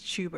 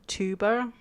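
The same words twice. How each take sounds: First: The word is said with a British pronunciation. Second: The word is said with an American pronunciation. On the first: "in England it's tuba because of the way you do t t" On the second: "in America you would say tuba"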